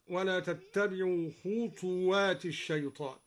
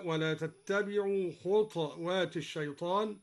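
First: Said in the usual way. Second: خطوات said khutwaat, ta without a vowel; خطوات with a silent ta; silent ta in khutwat. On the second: Shown as a demonstration. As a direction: read خطوات as khutwaat, not khutuwaat. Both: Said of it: "قرأ الدوري بإسكان الطاء هكذا".

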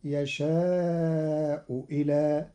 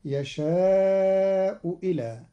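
First: Slow "يشاء إلى" with second hamza as kasra waw; Qalun reading. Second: Slow chanted "يشاء إلى"; drawn out recitation of "يشاء إلى"; recited phrase. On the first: Teacher demonstrating Qalun's hamza change on "يشاء إلى". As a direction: say "يشاء ولى" slowly. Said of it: "بإبدال الهمزة واوا مكسورة". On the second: Teacher reciting the phrase slowly in a chanted voice. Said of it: "قرأ قالون كلمتي يشاء إلى". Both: Shown as a demonstration.

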